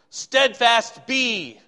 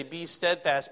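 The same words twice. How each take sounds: First: STEADFAST punched high and loud, very slowly; stress on STEADFAST. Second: Said in the usual way. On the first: Shown as a demonstration. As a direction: proclaim STEADFAST, then a drawn-out BE. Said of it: "it emphasizes greatly the word steadfast". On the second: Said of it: "We would say".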